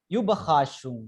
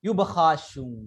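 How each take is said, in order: First: "Überraschung" again as oo-ba-ha-SHUNG, falling and settled; German pronunciation, repeated. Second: "Überraschung" as oo-ba-ha-SHUNG, falling at the end; German pronunciation. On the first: Teacher repeating "Überraschung" so students catch it, falling. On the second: Teacher modelling "Überraschung" for the class, clear and falling. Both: Shown as a demonstration. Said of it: "എന്ന് ചോദിച്ചു".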